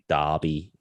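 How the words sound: It is said with a non-Australian pronunciation. "but we would say Derby"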